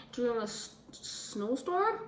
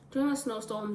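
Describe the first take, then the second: First: Unsure question. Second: Said in the usual way. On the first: Real, not acted. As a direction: ask "snowstorm" as if checking yourself. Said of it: "Is it?".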